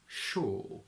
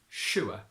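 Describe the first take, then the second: First: The vowel is a single long o sound. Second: The vowel glides into a final open vowel. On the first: "we simply pronounce it as O" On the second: "we keep it as a diphthong in Geordie"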